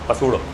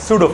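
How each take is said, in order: First: The word begins with an audible P sound. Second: The word begins with an S, P silent. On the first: The speaker calls it wrong. "पसूडो नहीं रे बाबा" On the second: The speaker calls it right. "पी silent है"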